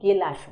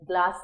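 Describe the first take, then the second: First: A vowel comes between the first two consonants. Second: The first two consonants are said together. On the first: "গেলাস বলছি" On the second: "গ্লাস না বলে"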